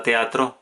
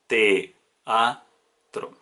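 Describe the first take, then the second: First: Said in the usual way. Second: Teatro drawn out as te-a-tro, each syllable apart; syllables split apart. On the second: Shown as a demonstration. Teacher answering her own question, slowly splitting the syllables. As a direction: pull Teatro into three separate syllables. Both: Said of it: "¿Cómo separamos la palabra teatro?".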